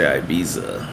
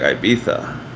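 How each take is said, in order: First: The middle consonant is a z sound. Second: The middle consonant is a th sound. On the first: This is how Americans say it. "Americans say Ibiza" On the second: This is how Spaniards say it. "Spaniards say like Ibiza"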